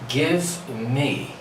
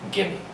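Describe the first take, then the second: First: Both words are said fully, with the v sound. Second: The v is dropped and the words blend together. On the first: "Gimme is the reduced form of give me" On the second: "I drop the pronunciation of the letter V and I just replace it with M"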